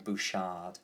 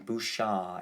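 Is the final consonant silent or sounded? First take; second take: sounded; silent. First: The final d is sounded. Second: The final d is silent. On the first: The speaker calls it wrong. "rather than" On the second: The speaker calls it right. "is how you pronounce that"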